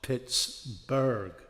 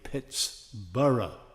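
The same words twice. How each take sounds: First: The last syllable sounds like burg. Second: The last syllable sounds like borough. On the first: It follows the German naming. The speaker calls it wrong. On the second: It follows the Scottish naming. The speaker calls it right. "the right way"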